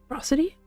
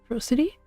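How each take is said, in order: The two takes are said the same way.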